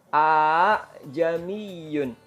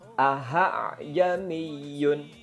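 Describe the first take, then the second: First: The vowel is lengthened instead of a hamzah. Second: The second hamzah becomes an h sound. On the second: "mengganti hamzah dengan ha, ha besar"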